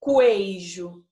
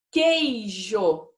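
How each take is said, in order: First: "queijo" dito "cu-ei-jo", com o U soando; U pronunciado errado. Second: "queijo" com som de K puro, sem U; U mudo. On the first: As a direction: errar de propósito "queijo", soando o U depois do Q. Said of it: "A gente não fala queijo". ("queijo" errado, com som de "cuei") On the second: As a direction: dizer "queijo" bem claro, começando em "ke". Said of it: "esse U não aparece". ("queijo" normal, com o U mudo) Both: Shown as a demonstration.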